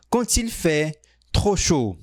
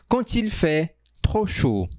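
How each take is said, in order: Both takes have the same delivery.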